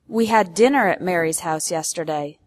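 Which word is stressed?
dinner. The word dinner carries the main stress. It corrects the meal, not lunch.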